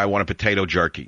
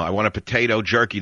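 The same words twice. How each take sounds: First: Said in the usual way. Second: A break after potato so jerky stands alone as an insult; pause before jerky. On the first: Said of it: "you say to the guy". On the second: Shown as a demonstration. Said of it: "if you do it with a comma".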